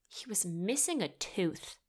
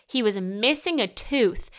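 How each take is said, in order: First: Softer, deadpan aside; muted disbelief. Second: Louder, emphatic outraged statement; loud disbelief. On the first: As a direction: drop the volume on the absurd detail. First take, dropped low in volume. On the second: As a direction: hit MISSING and TOOTH with loud incredulity. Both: Real, not acted.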